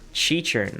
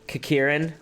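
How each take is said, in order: First: The word begins with a ch sound. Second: The word begins with a hard k sound. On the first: "it's pronounced Chichurn" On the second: "I always pronounce them as Kakirin"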